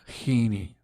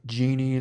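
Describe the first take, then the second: First: The name begins with a breathy h sound. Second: The name begins with an English j sound. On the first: "like the Spanish J" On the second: "genie like a like you rub the lamps"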